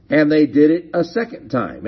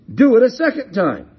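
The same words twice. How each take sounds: First: Said in the usual way. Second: High, quick, raised-voice order; commanding. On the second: Acted. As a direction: call out an order to the crowd. Prophet's order acted out.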